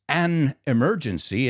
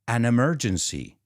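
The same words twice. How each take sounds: First: There is a pause between the two words. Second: The two words run together without pause. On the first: The speaker calls it wrong. "It's not an emergency" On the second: The speaker calls it right. "I put them together. There's no pause"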